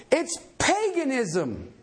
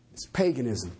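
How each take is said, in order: First: "paganism" drawn out slowly with heavy stress; emphatic. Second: "paganism" dropped to a very low pitch; low, understated. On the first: Preacher rebutting excuses for tongues, emphatic stretched "paganism". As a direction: lean hard on "paganism", stretching it. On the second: Preacher letting the verdict sink in, low "paganism". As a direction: repeat the verdict low and matter-of-fact, "paganism" unstretched. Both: Real, not acted.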